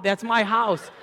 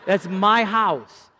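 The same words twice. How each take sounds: First: That's MY house, higher put-on voice with MY stressed; hammed-up brag, MY punched; mock gloating. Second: That's MY house stretched very slowly, higher and louder; drawn-out mock gloating. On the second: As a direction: savour every word of That's MY house. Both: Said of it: "I'm like".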